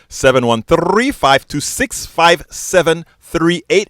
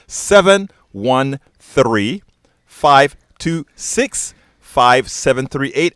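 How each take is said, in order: First: The number is read at a normal, quicker pace. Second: The number is read at a slower pace.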